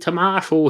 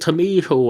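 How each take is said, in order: First: The word is said in a non-American accent. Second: The word is said in an American accent. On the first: This is how the speaker says it. "if I say to me tomato here" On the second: This is how American listeners say it. "Is it anything like a tomato"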